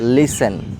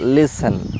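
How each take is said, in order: The two takes are said the same way.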